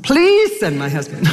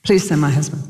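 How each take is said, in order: First: Pleads again through a laugh; half-laughing begging prayer. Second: Said in the usual way. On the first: Retold or imitated.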